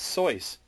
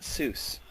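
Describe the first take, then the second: First: The name is said with an oy vowel. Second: The name is said with an oo vowel. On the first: The speaker calls it right. "It's Soy's" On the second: The speaker calls it wrong. "It's not Seuss"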